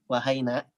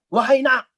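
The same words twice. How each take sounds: First: It is said in a soft, gentle voice. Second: It is said in a harsh, snapping voice. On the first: The greeting conveys closeness and affection. The speaker calls it right. "pasti pelan" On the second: The greeting sounds like a scolding. The speaker calls it wrong. "pakai suara ngebentak"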